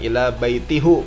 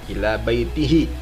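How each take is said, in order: First: The last word ends with a u vowel. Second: The last word ends with an i vowel. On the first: The speaker calls it wrong. "bukan ila baitihu. Nah, salah" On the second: The speaker calls it right. "Jadi dibacanya ila baitihi"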